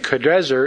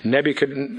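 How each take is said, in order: First: The consonant before the ending is an r. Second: The consonant before the ending is an n. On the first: This is the more accurate form of the name. "is probably the proper pronunciation" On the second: This is the familiar form of the name. "I'll just use the thing we're familiar with"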